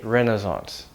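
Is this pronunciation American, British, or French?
American. It is said with an American pronunciation. "Americans say"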